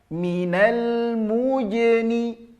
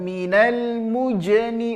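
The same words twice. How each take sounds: First: The j sound is soft. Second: The j sound is hard. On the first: The speaker calls it right. "Lembut bunyinya" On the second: The speaker calls it wrong.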